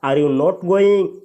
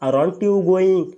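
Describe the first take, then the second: First: 'Are' and 'not' are said as separate words. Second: 'Are' and 'not' merge into one word, 'aren't'. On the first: "Indian speaker बोलते हैं" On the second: "American English वाले बोलते हैं"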